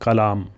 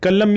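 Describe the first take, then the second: First: The word is said in its full form. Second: The word is said in a shortened form. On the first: "अगर पूरा बोलेंगे तो कलाम" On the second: "ये शॉर्टकट है"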